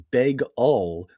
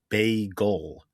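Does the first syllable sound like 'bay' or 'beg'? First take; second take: beg; bay. First: The first syllable sounds like 'beg'. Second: The first syllable sounds like 'bay'. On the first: The speaker calls it wrong. "She says beg-ul" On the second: The speaker calls it right. "it should be pronounced like a seabird"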